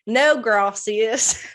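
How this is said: It is said in an exaggerated hick accent. "He says it like he's a hick"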